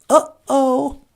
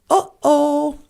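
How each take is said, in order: The two takes are said the same way.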